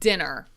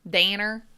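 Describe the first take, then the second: First: The word is said in a plain accent. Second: The word is said in a Southern country accent. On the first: "I pronounce it dinner" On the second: "that's very country"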